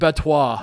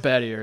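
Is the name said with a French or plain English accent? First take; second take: French; plain English. First: The name is said with a French accent. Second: The name is said with plain English sounds. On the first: This pronunciation sounds pretentious. "Put a little French accent" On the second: This is the original, unpretentious pronunciation. "it probably was Battier"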